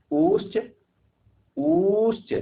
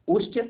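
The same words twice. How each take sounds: First: उश्च sung up high and rising; drawn-out chanting उश्च, climbing in pitch. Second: Said in the usual way. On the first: Shown as a demonstration. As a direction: lift उश्च far higher with a rising tune. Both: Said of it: "ध्यान से देखिएगा".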